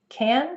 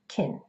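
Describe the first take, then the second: First: The vowel is the open a sound. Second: The vowel is the short i sound. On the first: "the vowel sound will change from a to it" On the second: "Can becomes kin"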